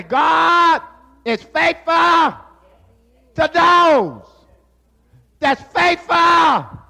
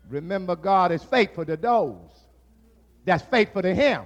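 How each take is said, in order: First: Slow, higher, louder proclamation; preached repeat. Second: Said in the usual way. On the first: Shown as a demonstration. Preacher repeats the point to the congregation, slow shouted proclamation. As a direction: hammer it home, word by word. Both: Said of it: "I say".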